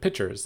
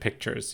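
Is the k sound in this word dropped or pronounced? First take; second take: dropped; pronounced. First: The k sound is dropped, like pitchers. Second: The k sound before the t is pronounced. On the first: "You pronounce it pitchers, like yeah, pitchers of water" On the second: "you don't pronounce it pictures"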